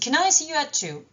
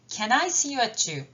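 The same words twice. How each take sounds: First: The word 'can' is quick with a weak vowel. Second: The word 'can' has its full vowel. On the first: "si je veux aller plus vite, le mettre en forme faible" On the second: "Est en forme forte"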